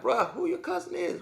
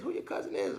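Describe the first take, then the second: First: Put-on high, hushed disbelief from a kid who just got beaten; a kid squeaking out who's your cousin; pitched way up and quieter, in mock shock; stunned high voice. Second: Squeaked very high and very soft; the repeat pushed further up in mock shock; a near-whispered high-pitched echo; even higher hushed disbelief.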